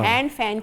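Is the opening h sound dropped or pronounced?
pronounced. The h and f sounds are both pronounced. "हैंड फैन की जगह"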